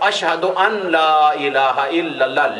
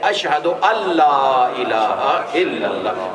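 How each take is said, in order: First: An n sound is heard before la. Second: The n is silent and merges into la. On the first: "लिखा हुआ ये है" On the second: "पढ़ने में हम पढ़ेंगे ... नून साइलेंट हो जाएगा"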